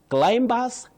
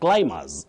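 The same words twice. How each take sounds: First: The B sound after M is pronounced. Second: The B sound after M is silent. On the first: The speaker calls it wrong. "no, not in standard English" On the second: The speaker calls it right. "The B after M is not pronounced, it is silent"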